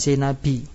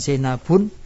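First: The word ends with an 'i' vowel. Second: The word ends with 'un', adding nunation. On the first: "bukan Zainabi" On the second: "bukan Zainabun"

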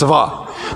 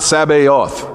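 First: The word has one syllable, starting with ts. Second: The word has three syllables, starting with s. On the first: The speaker calls it right. "It's actually one syllable" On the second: The speaker calls it wrong. "It's not Sabaoth"

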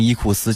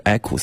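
First: It is said as three Chinese-style syllables. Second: It is said with a Latin-style pronunciation. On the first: The speaker calls it wrong. "我们会读把它读成伊库斯" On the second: The speaker calls it right. "其实它的读音应该音译的标准应该说成是equus"

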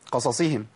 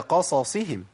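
First: The vowels are clipped and the two s sounds merge. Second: The vowels are full and both s sounds are distinct. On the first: The speaker calls it wrong. "انا اختلست من الحركات فبقت الصادين الاثنين ايه؟ كانهم صاد واحده" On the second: The speaker calls it right. "هي قصصهم"

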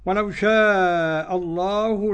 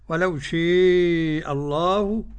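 First: The long vowel is an open a sound. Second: The long vowel leans toward an e sound.

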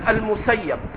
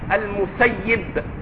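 First: The vowel before the final b is 'a'. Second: The vowel before the final b is 'i'. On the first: The speaker calls it wrong. "سمعتم أخاكم يقول المسيب" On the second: The speaker calls it right. "والأظهر عند أكثر المحققين أنه باسم الفاعل المسيب"

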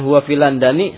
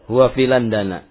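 First: The last word ends with an 'i' vowel. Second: The last word ends with an 'a' vowel. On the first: The speaker calls it wrong. "Kalau dibaca dengan huwa fi landani, salah" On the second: The speaker calls it right. "maka tanda kasrohnya adalah fathah"

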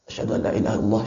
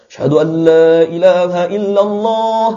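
First: The phrase is said quietly, under the breath. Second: The phrase is said aloud, at full voice. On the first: It is recited privately before being proclaimed. "kita baca secara sir" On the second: It is proclaimed publicly. "baru kita ucapkan"

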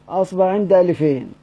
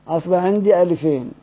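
Both takes have the same delivery.

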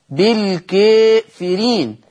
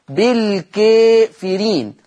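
The two takes are said the same way.

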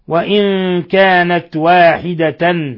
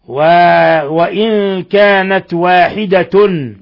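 First: The last word ends in -tan. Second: The last word ends in -tun. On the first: "بنصب تاء واحدة مع التنوين" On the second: "برفع التاء من لفظ واحدة مع التنوين"

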